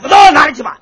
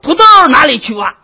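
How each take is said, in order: First: It is said fast. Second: It is said slowly.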